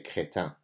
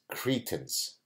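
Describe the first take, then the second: First: The word is pronounced with French sounds. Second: The word is pronounced with English sounds. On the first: "In French, you say crétin" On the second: "that's how I'm going to pronounce the word"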